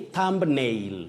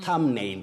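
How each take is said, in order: First: The b sound is pronounced after 'thum'. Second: The b sound is silent after 'thum'. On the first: The speaker calls it wrong. "Don't say thumbnail" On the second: The speaker calls it right. "That B is silent"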